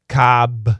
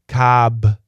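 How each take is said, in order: The two takes are said the same way.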